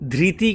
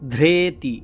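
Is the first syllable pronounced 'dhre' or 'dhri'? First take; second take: dhri; dhre. First: The first syllable has an 'ri' sound. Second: The first syllable has an 're' sound. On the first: The speaker calls it wrong. "ধৃতি কিন্তু হবে না" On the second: The speaker calls it right. "এই রি সবসময় যজুর্বেদে রে মতন উচ্চারণ হবে"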